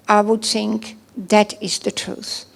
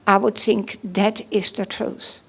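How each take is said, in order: Both takes have the same delivery.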